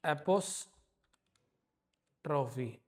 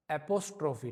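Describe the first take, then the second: First: एपोस्ट्रॉफी drawn out slowly and softly, syllable by syllable; pronounced slowly. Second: Said in the usual way. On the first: Shown as a demonstration. Teacher to students, slowly saying एपोस्ट्रॉफी. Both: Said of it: "इसको हम एपोस्ट्रॉफी बोलते हैं".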